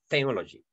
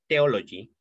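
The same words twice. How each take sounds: First: The word begins with a th sound. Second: The word begins with a plain t sound. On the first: The speaker calls it right. "como que la lengua sonara como Z" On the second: The speaker calls it wrong. "Nosotros cuando hablamos inglés tendemos a decir theology"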